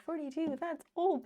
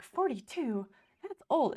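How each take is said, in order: First: Higher, lightly shocked; a touch of mock horror at the age. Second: Louder, higher mock dismay; shocked at the age, half-joking. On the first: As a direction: retell the old dismay with a lift. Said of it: "at first I was like". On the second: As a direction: gasp it out like it's ancient. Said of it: "at first, I was like".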